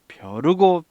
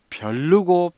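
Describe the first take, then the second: First: No extra l sound precedes the second syllable. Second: An extra l sound precedes the second syllable. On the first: The speaker calls it right. "벼르고 별렀죠" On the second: The speaker calls it wrong. "아니죠"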